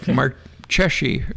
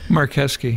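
First: The ch is said as a ch sound. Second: The ch is said as a k sound. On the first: The speaker calls it wrong. "because it looks like Marcheschi" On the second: The speaker calls it right. "in Italian, the CH is a K"

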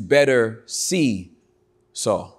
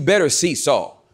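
First: It is said calmly, as a reflection. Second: It is said urgently, as a warning. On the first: You should understand him more clearly. "with a different inflection" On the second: You must go to meet him or be harmed. "There's an urgency that I want you to have"

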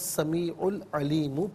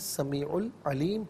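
First: The last word ends with a short vowel. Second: The last word ends on a bare consonant. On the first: The reading continues without stopping. "और हुवा समीउल अलीमु पढ़ेंगे" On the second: The reader stops at the end of the verse. "वफ़ की सूरत में समीउल अलीम पढ़ा जाएगा"

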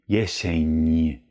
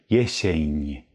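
Both takes have the same delivery.

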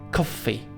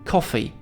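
First: The middle consonant is long and doubled. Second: The middle consonant is short and single. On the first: The speaker calls it wrong. "a nie" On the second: The speaker calls it right. "gdzie podwójne spółgłoski wymawiane są jako jedna"

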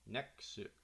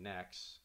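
First: The word ends with an added vowel sound. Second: The word ends on a plain consonant sound. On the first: The speaker calls it right. "say "nexu,"" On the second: The speaker calls it wrong. "So instead of saying "next,""

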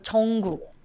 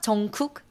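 First: The second syllable starts with a soft G sound. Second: The second syllable starts with a hard K sound. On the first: The speaker calls it right. "so it will pronounce more G sound" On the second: The speaker calls it wrong. "it's not 정국 because it sounds like a K cook"

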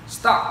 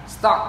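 The two takes are said the same way.

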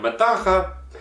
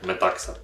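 First: The middle consonant is a single 'kh' sound. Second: The middle consonants are a 'ks' cluster. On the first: The speaker calls it wrong. "я хочу його читати як метаха, неправильно" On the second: The speaker calls it right. "Читається він як метакса"

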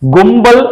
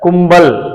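First: It begins with a voiced g like in good. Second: It begins with the plain native Tamil k sound. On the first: The speaker calls it wrong. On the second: The speaker calls it right.

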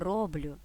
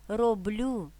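First: The stress is on the first syllable. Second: The stress is on the last syllable. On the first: The speaker calls it wrong. "а не" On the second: The speaker calls it right. "здебільшого наголошуємо останній склад"

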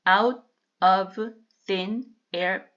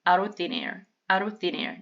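First: The phrase is said at a slower pace. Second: The phrase is said at a fast pace.

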